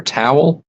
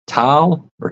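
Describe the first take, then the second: First: Towel said as "TOW-ul", rising as a question; two-syllable towel. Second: Towel drawn toward "tile", rising at the end; regional pronunciation. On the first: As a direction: sound the w clearly in towel, "tow-ul". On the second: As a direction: say Towel as one long gliding vowel, like "tile". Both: Shown as a demonstration. Comparing two pronunciations of towel.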